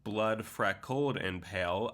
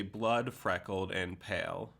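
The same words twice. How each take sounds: First: "blood" passed over lightly, weight on "freckled"; unemphasized "blood". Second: "blood" takes the main beat, "freckled" follows lower; stress on "blood". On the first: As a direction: let "blood" lead quickly into a stressed "freckled". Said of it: "you could not emphasize it". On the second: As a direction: lean on "blood" at the start. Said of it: "or you could say". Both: Shown as a demonstration.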